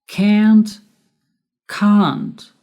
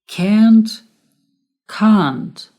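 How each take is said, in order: The two takes are said the same way.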